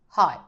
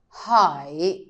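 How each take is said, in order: First: The word is said quickly and shortly. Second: The word is said slowly and fully.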